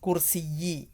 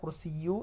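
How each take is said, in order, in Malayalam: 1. ഈ വാക്ക് i എന്ന സ്വരാക്ഷരത്തിൽ അവസാനിക്കുന്നു. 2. ഈ വാക്ക് u എന്ന സ്വരാക്ഷരത്തിൽ അവസാനിക്കുന്നു. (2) "കുർസിയു എന്നല്ല വരിക"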